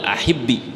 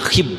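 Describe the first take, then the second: First: The word ends in a short i vowel. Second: The word ends with no final vowel. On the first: The speaker calls it right. "karena harokat asli pada dua bertemu dua huruf mati dikasroin" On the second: The speaker calls it wrong. "Yang nggak boleh dibaca"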